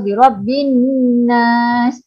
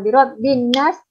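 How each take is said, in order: First: The n is held with a nasal hum. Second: The n is rushed with no nasal hum. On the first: The speaker calls it right. "tekan dekat nun tu" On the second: The speaker calls it wrong. "laju je tu, ha, tak dengung"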